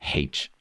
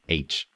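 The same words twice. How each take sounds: First: The letter name starts with an H sound. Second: The letter name starts with a vowel sound. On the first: The speaker calls it wrong. "not H" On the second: The speaker calls it right. "It is H, doesn't mean it starts with an H"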